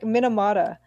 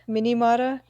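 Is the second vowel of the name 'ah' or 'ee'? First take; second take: ah; ee. First: Every vowel is the same 'ah' sound. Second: The second vowel is an 'ee' sound. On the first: The speaker calls it right. "It's perfectly phonetic" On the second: The speaker calls it wrong. "like mini"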